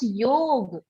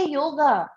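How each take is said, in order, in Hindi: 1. शब्द व्यंजन g पर खत्म होता है। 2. शब्द के अंत में एक स्वर जोड़ा गया है। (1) "ऑलवेज ऑलवेज प्रोनाउंस योग" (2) "नेवर से योगा। ये अंग्रेज बोलते हैं"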